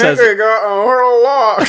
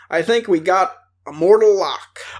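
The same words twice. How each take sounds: First: It is said through an open, unmoving mouth. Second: It is said in a normal reading voice.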